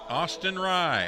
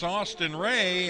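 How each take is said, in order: First: The surname rhymes with 'my'. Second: The surname rhymes with 'day'. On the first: The speaker calls it right. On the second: The speaker calls it wrong.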